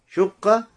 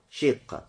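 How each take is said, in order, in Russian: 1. Первый гласный — огубленный звук 'u'. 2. Первый гласный — передний звук 'i'. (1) "С даммой" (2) "с кесрой"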